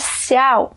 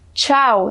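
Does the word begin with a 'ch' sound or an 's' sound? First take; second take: s; ch. First: The word begins with an 's' sound. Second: The word begins with a 'ch' sound. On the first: The speaker calls it wrong. "não é ciao" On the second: The speaker calls it right. "que é tchau"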